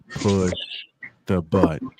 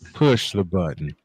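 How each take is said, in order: First: It is said slowly and drawn out. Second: It is said at a normal speed.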